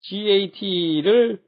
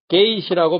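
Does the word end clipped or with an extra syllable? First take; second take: extra syllable; clipped. First: It ends with a full extra 'teu' syllable. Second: It ends clipped, with no extra syllable. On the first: The speaker calls it wrong. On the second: The speaker calls it right.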